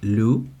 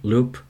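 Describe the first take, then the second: First: The name ends without a p sound. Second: The name ends with a p sound. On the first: "if you're technical about it, it's actually pronounced Lou" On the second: "everybody pronounces it Loop"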